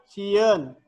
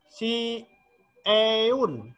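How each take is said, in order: First: The word is said smoothly as one unit. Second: The word is broken into two separate parts. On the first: The speaker calls it right. "dibacanya sieun" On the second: The speaker calls it wrong. "bukan dibaca si eun, salah"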